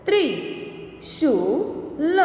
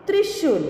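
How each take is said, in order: First: Slow, each sound drawn out, rising at the end; slow drawn-out reading. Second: Said in the usual way. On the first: Shown as a demonstration. Teacher slowly sounding out a word for students, drawn out. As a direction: stretch the word slowly for the class. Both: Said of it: "के उदाहरण हम देखें".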